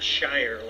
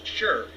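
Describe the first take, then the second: First: The vowel is long, rhyming with fire. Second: The vowel is short and reduced, like fur. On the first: The speaker calls it wrong. "not Shire like I've been pronouncing it" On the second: The speaker calls it right. "that it's Sure"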